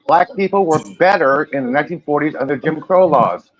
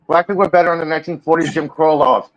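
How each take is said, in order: First: It is said more slowly. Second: It is said quickly.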